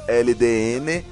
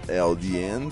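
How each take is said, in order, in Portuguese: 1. As letras são ditas com nomes de letras em português. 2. As letras são ditas com nomes de letras em inglês.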